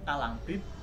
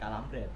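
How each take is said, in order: First: The last syllable has an 'ee' vowel. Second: The last syllable has an 'eh' vowel. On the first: The speaker calls it right. "pelafalan yang benar adalah kalambrit" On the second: The speaker calls it wrong. "bukan kalambret"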